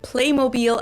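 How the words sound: The name is pronounced the German way. "they kept the German pronunciation of it for the American market too"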